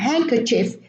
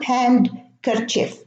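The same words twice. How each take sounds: First: The D sound in the middle is silent. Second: The D sound in the middle is pronounced. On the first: The speaker calls it right. "the same thing" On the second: The speaker calls it wrong. "It's not handkerchief"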